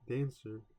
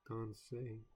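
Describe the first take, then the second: First: It sounds like the English word dancer. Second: It sounds like don-say, ending in an ay. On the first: The speaker calls it wrong. "So not dance, dan, dancer" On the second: The speaker calls it right. "but Don, Don say"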